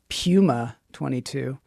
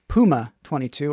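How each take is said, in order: First: Puma is said with a British pronunciation. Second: Puma is said with an American pronunciation. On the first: "or if you're in England" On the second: "which stands for"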